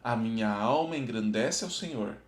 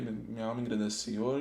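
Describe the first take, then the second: First: It is read slowly, word by word. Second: It is read quickly, words rushed together. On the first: The speaker calls it right. "Então tenta ler devagar" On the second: The speaker calls it wrong. "Não tenta ler, ... Não faça isso"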